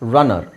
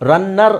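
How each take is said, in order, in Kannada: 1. ಮಧ್ಯದ n ಶಬ್ದ ಒಂದೇ, ಹ್ರಸ್ವವಾಗಿ ಹೇಳಲಾಗುತ್ತದೆ. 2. ಮಧ್ಯದ n ಶಬ್ದ ಎರಡು ಬಾರಿ, ದೀರ್ಘವಾಗಿ ಹೇಳಲಾಗುತ್ತದೆ. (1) "ಹೇಳಬೇಕಾದ್ರೆ ಅದನ್ನು ನಾವು ಒತ್ತಬಾರದು" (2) "ರನ್ನರ್ ಅಲ್ಲ"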